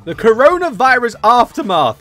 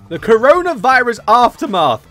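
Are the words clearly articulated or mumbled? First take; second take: clearly articulated; clearly articulated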